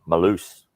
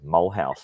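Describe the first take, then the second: First: The name is said the local way. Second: The name is said following its spelling. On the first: This is how locals say it. The speaker calls it right. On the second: This is how an outsider guesses it from the spelling. The speaker calls it wrong. "how I, I thought I would pronounce it was Mulhouse"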